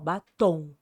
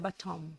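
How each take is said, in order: First: The word ends in a nasal vowel, lips open. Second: The word ends with lips closed on M. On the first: This is how Brazilians say it. "A gente fala tom" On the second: This is how it would be said in English. "com M boca fechada"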